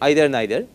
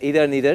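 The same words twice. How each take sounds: First: The first vowel sounds like 'eye', as in height. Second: The first vowel sounds like 'ee', as in see. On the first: "I say either neither, and that is why I am classifying them along with height" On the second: "either neither is also accepted"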